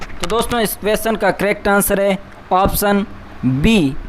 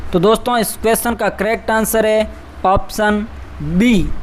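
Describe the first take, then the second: The two takes are said the same way.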